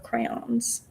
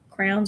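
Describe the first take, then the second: First: It is said as two syllables, cray-ons. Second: It is said as one syllable, like crowns. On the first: "it says crayons, so therefore it's crayons" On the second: "I always called them crowns as a kid"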